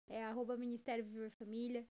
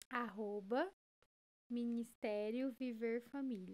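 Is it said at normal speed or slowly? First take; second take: normal; slowly. First: It is said at normal speed. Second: It is said more slowly.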